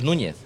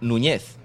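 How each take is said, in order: First: The stress is on the first syllable. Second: The stress is on the last syllable. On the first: This is the older form with the accent mark. The speaker calls it wrong. "no es Núñez" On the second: This is how the person now writes the name. The speaker calls it right. "es Núñez ... se quitó la tilde"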